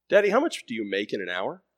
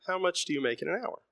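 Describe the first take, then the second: First: Put-on a mild boy's voice, only lightly raised; a son's first gentle ask; child son asking. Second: Put-on higher, begging boy's voice; a son's repeated plea to his father, higher; pleading child. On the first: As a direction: ask it plainly, a touch curious. Son presses his dad. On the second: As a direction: ask it again as a desperate little plea. Son begs his dad.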